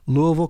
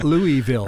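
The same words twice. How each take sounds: First: The last syllable sounds like 'vull'. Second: The last syllable sounds like 'vill'. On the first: The speaker calls it right. "Did you notice I said Vull and not Ville?" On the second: The speaker calls it wrong. "It is not Louisville"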